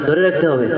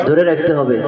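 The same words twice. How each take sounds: The two takes are said the same way.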